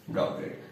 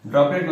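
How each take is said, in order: First: droplet whispered as an echo. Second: Said in the usual way. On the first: Shown as a demonstration. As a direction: breathe the word droplet again, softer. Teacher repeats new word softly.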